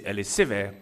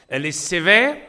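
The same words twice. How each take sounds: First: Said in the usual way. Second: « sévère » said much louder and higher, with a rising tune; stress on sévère. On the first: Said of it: "repeats it emphatically". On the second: Shown as a demonstration. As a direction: hit the word « sévère » hard and high. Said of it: "ou elle est dite légère". (accent fort sur « sévère », plus haut et plus fort)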